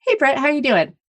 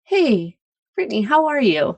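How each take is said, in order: First: Casual greeting. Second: Caring greeting. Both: Shown as a demonstration. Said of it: "There's a difference between".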